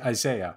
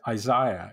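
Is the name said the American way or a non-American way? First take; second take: American; non-American. First: The name has a North American pronunciation. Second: The name has a non-American pronunciation. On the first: The speaker calls it wrong. "I'm of a North American disposition, ... I say Isaiah" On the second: The speaker calls it right. "one should say Isaiah"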